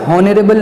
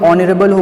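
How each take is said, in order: First: The word starts with an audible h sound. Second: The word starts with a vowel, no h. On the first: The speaker calls it wrong. "यहाँ पे हॉनरेबल नहीं होगा" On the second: The speaker calls it right. "ऑनरेबल होगा"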